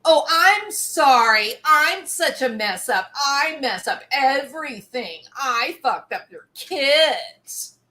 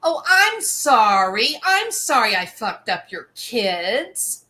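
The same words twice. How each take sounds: First: Louder, whiny overblown sorry, slowing at the end; melodramatic mock apology. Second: Sarcastic fake apology, a bit louder; mocking Amber. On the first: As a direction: ham up a self-pitying apology. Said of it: "turn them around into something melodramatic". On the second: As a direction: sneer out a hollow sorry. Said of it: "And what does she say?".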